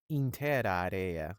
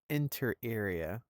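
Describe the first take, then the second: First: It is pronounced in a Latin style. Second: It is pronounced in a plain English way.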